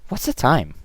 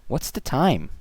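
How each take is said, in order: Both takes have the same delivery.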